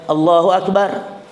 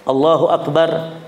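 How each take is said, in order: Both takes have the same delivery.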